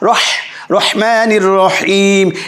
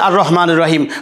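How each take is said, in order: First: The h in Rahman is a deep throaty h. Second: The h in Rahman is a light, plain h. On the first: The speaker calls it right. "বলতে হবে হা রহ রহমানির রহিম। এই যে বড় হা" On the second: The speaker calls it wrong. "কেউ যদি বলে আর রহমানির রহিম হবে না ভাই"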